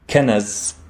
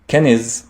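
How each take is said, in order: First: An a vowel follows the n sound. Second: An i vowel follows the n sound. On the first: "the noon in the middle does not have a fatha" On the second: "it does not have a kasra"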